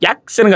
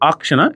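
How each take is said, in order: First: The word begins with a y sound. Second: The word begins with a plain vowel. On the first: The speaker calls it wrong. "యాక్షన్ కాదురా" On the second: The speaker calls it right.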